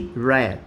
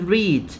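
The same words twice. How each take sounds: First: The vowel is short, like 'red'. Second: The vowel is long, like 'reed'. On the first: The action happened in the past. "Simple past or past simple, you say read" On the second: The action happens habitually now. "In the simple present or present simple, you say read"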